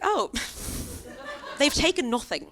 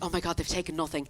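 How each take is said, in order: First: It sounds offended and let down. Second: It sounds relieved and thankful.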